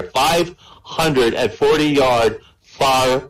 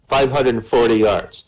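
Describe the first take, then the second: First: Drawn out slowly, each number weighed; slow emphasis. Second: Said in the usual way. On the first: Shown as a demonstration. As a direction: stretch out Five hundred and forty to sell the length.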